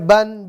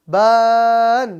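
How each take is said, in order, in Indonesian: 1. Vokalnya pendek dan terpotong. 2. Vokalnya dipanjangkan. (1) "Maka dibaca ban" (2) "Jangan dibaca panjang"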